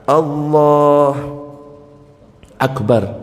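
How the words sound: There is a pause between the two words. The speaker calls it wrong. "Tidak berhenti antara dua kalimat sekalipun sebentar. ... enggak boleh"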